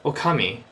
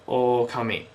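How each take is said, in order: First: The first vowel O is said short. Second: The first vowel O is said long. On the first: The speaker calls it wrong. "Not okami" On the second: The speaker calls it right. "The O has to be longer because there are two of them"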